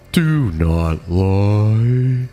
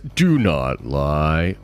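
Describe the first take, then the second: First: The voice is altered by a voice changer. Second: The voice sounds natural and unprocessed.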